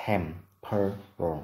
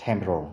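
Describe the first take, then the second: First: Temporal very slowly, broken into separate syllables; slow, segmented teaching demo of "temporal"; syllable-by-syllable pronunciation. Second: Said in the usual way. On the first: Shown as a demonstration. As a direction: sound out "temporal" with a gap after each syllable. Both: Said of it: "Từ này trọng âm rơi vào âm tiết thứ nhất".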